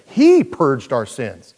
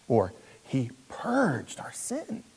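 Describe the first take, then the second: First: HE hit loud, whole line slowed right down; stress on HE. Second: Softer, slow, leaning on purged with a rise; stress on PURGED. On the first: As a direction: lean hard on He, drawn-out delivery. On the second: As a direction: dwell quietly on purged. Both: Shown as a demonstration. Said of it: "Put the emphasis on any syllable you want".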